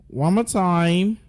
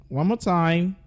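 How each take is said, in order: No difference in how they are said.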